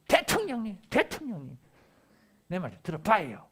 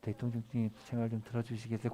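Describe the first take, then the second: First: It is said in a loud, demanding tone. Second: It is said in a gentle, polite tone.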